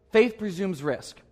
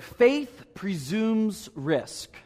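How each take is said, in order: First: "Faith presumes risk" repeated at a slowed but quicker pace; slowed restatement of "Faith presumes risk"; slower repeat. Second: "Faith presumes risk" drawn out very slowly, word by word; very slow emphatic quote of "Faith presumes risk". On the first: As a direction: say "Faith presumes risk" again, a little faster. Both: Shown as a demonstration.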